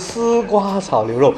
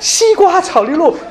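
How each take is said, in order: First: The first syllable begins with a dental sound. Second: The first syllable begins with a palatal sound. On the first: The speaker calls it right. "其实我要讲的是丝瓜炒牛肉" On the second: The speaker calls it wrong. "我们丝瓜一定讲西瓜"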